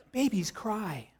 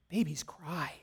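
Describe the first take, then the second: First: Hushed punchline whisper; whispered aside. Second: Imitating a toddler. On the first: Retold or imitated. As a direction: breathe it out as a knowing aside. Father repeats the toddler's line. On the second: Toddler's answer retold by father.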